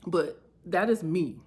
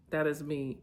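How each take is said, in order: First: "is" punched and louder, falling; stress on is. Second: Said in the usual way. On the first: Real, not acted. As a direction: lean hard on the word "is". Emphatic self-affirmation, repeated.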